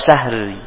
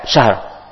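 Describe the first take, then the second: First: An extra i vowel is added at the end. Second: It ends on the r, with no vowel. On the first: The speaker calls it wrong. "jangan syahri" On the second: The speaker calls it right. "jangan dibuang huruf ro-nya"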